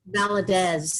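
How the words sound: The name is pronounced the English way, short vowel. "in English, it's Valadez. It's a shorty"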